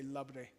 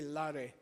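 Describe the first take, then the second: First: A b sound links the two syllables. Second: The two syllables are joined without a b sound. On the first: This is the normal everyday pronunciation. "We say labre" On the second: This follows the written spelling. "It should be la re"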